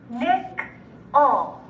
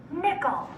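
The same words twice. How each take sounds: First: Nickel in two separate syllables. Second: Said in the usual way. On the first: Shown as a demonstration. Teacher breaking Nickel up for students, syllable by syllable. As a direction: split Nickel with a clear pause inside. Syllable blending drill, word broken up.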